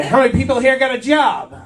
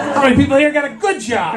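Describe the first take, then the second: First: Said in the usual way. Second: "good" picked out as the key word; stress on GOOD. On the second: Real, not acted. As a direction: lean on the word "good" in the question. Repeats question, adding the word good.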